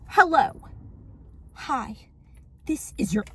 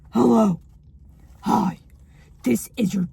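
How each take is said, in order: First: It is read in a plain, natural voice. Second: It is read in a put-on, menacing voice.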